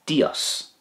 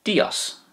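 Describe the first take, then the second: First: Said in the usual way. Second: Dios said again alone, high and softly breathed; repeated for learners. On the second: Shown as a demonstration. Teacher repeating Dios softly for learners. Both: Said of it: "in Spanish it's Dios".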